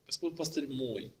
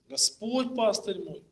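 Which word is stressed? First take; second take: мой; Господь. First: The stress falls on the third word. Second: The stress falls on the first word. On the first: The shepherd is mine, not someone else's. "поставили на третье слово" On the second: It is the Lord, and no one else, who is the shepherd. "логическое ударение поставили на первое слово"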